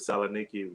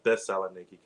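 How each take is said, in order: First: The name starts directly with 'Sa', no 'Thes'. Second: The name starts with a full 'Thes' syllable. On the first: This is how local people say it. "they pronounce it Saloniki" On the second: This is how people back home say it. "We uh, pronounce it Thessaloniki"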